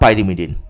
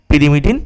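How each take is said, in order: First: The first syllable has a 'pie' diphthong sound. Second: The first syllable has a short 'pee' sound. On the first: "ইংরাজির উচ্চারণ দেখবে পিরিমিডিনটা পাইরিমিডিনও হয়ে যেতে পারে" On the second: "পিরিমিডিনটা"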